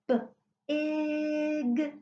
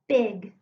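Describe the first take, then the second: First: The word is split into separate sounds. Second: The word is said smoothly as one unit. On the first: "It should have sounded like this"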